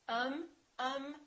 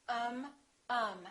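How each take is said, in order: No difference in how they are said.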